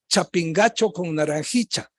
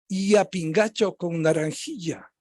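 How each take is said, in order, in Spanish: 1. La ll suena casi como una ch. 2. La ll suena muy suave, como una y ligera. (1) "a lo quiteño de clase baja" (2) "más suave aún, casi como los peruanos"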